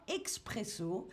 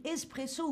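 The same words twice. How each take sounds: First: Expresso said with "ks" before the p; French mispronunciation expresso. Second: Espresso said with a plain "s" before the p. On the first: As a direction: say "expresso", first syllable "ex". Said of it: "avec une faute, en français toujours". (expresso prononcé à la française, avec « x ») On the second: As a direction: say "espresso", first syllable "ess". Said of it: "on dit espresso ou parfois expresso". (espresso prononcé avec un simple « s ») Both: Shown as a demonstration.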